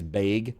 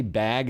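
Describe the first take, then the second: First: BAG said as "bayg"; Midwestern vowel. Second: Said in the usual way. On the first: Shown as a demonstration. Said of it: "that's weird". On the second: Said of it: "if you say bag as bag".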